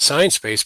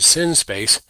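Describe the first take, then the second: First: The first syllable sounds like 'sign'. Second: The first syllable sounds like 'sin'. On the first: "not Sign Space" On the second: "but Sin Space"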